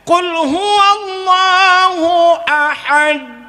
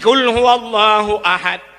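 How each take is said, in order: First: The final d is followed by a vowel. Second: The final d is stopped with no vowel. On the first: The speaker calls it wrong. "berarti ta mati salah" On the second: The speaker calls it right.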